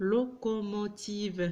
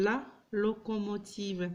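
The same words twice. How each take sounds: First: Locomotive stretched out syllable by syllable, lo-co-mo-tive. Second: La locomotive read slowly and evenly, whole word joined; slow careful reading. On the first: Teacher sounding out locomotive for pupils, slowly by syllables. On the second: Teacher modelling la locomotive, slow and careful. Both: Shown as a demonstration.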